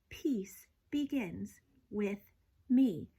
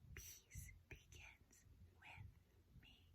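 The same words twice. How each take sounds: First: It is said in a normal voice. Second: It is whispered.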